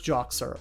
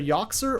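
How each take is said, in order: First: The name begins with a J sound. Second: The name begins with a Y sound. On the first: "or it's Joxer" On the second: "I think Yoxer is probably the correct pronunciation"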